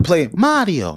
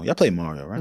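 First: Said in the usual way. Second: Funny low voice. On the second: Shown as a demonstration. Asking his friends about Mario in a much lower, softer voice. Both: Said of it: "Why did you have to say it like that?".

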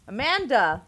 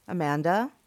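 First: Loud, high yell of "Amanda!", falling at the end. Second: Tentative call with rising pitch on "Amanda?"; questioning call-out. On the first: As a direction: yell out "Amanda!" for someone who won't answer. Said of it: "I yelled". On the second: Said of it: "I called out". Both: A narrator's reading.

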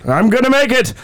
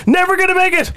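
First: Stubborn reply. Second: High, wailing doomsday cry; high dramatic warning. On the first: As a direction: insist you will make it. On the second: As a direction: wail that he won't survive. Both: Acted. Contrasting voices in mock summary.

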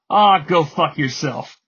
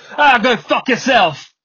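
First: Said in the usual way. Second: Imitated English accent, loud, high and drawn out; punchy, slow mock English accent; Idris Elba. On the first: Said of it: "we've heard people say that in movies". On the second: Podcaster showing how the accent improves a curse, mock English accent. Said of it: "when Idris Elba says it, it comes off as".

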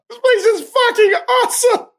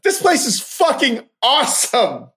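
First: High-pitched excited shout of praise. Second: Said in the usual way. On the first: Real, not acted. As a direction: blurt it out like a thrilled fan. Repeats it with more force.

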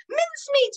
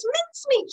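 First: Put-on an old lady's shrill, alarmed call; great-grandma crying out. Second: Very high, frantic repeat of the name; great-grandma crying out again. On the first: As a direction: call him back in a high panic. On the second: Acted. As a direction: cry his name in high panic. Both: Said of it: "she cried".

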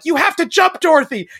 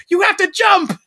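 First: High, loud urging; urgent plea. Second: High, loud shouted order; urgent shout. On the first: Blonde girl at the overflowing river, high urgent plea. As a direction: coax her to leap. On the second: Blonde girl at the overflowing river, high urgent shout. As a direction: yell it over the storm. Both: Retold or imitated. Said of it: "the little blonde girl's like".

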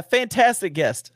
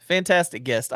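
First: "fantastic" stretched slow and lifted higher; emphatic praise. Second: Said in the usual way. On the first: Shown as a demonstration. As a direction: lean into "fantastic guest", drawn out slowly.

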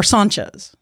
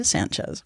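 First: Sanchez with an open "ah", like SAHN-chez; alternative pronunciation. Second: Sanchez with a flat American A, as in "ran"; mispronounced surname. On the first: Host correcting their guess at the guest's surname, open-A Sanchez. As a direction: say Sanchez with a Spanish-style A. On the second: Host first guessing at the guest's surname, flat-A Sanchez. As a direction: say Sanchez with the A of "can". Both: Real, not acted. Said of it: "it's, so it's Sanchez".

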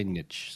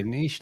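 First: Niche said as "nitch"; short i and tch ending in niche; American pronunciation. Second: Niche said as "neesh"; our pronunciation. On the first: Showing what Americans say, niche pronounced "nitch". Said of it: "they say niche". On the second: Contrasting with Americans, niche pronounced "neesh". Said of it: "We say niche". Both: Shown as a demonstration.

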